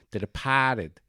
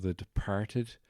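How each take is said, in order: First: Boston-accented "Departed", dropping the r. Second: Said in the usual way. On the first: Shown as a demonstration. Host mimics the movie's Boston pronunciation, Boston accent. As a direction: say "Departed" as broad Boston, "De-pah-ted". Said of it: "'cause they're all from Boston". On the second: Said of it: "or as it's pronounced in the movie".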